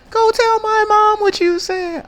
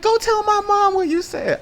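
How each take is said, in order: First: Put-on much higher, louder, slower girl voice; mocking girl threat, slower. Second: Put-on much higher, louder girl voice daring him; mocking girl threat. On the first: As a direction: drag it out like a daring girl. Girls threatening him.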